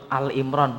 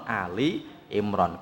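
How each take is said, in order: First: The first word is one short syllable, 'Al'. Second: The first word has two syllables, 'A-li'. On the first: The speaker calls it wrong. "karena ada orang nyebut Al Imron" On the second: The speaker calls it right. "bukan Ali Imron"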